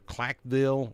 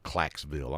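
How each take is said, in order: First: The name is said without an s before 'ville'. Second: The name is said with an s before 'ville'.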